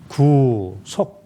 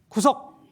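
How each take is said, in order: First: The word is said slowly and drawn out. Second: The word is said quickly and clipped. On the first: It means redemption or salvation. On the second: It means arrest or detention.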